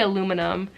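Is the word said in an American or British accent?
American. It is said in an American accent.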